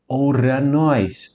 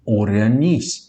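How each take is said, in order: First: The word ends with an 'ohs' sound. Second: The word ends with an 'ees' sound. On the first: The speaker calls it wrong. "A pronúncia não é essa" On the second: The speaker calls it right. "porque nós temos a presença do ditongo o i aqui"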